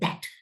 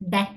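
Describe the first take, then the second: First: The word starts with a voiced th sound. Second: The word starts without a th sound. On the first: The speaker calls it right. "it's that" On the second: The speaker calls it wrong. "that இல்ல"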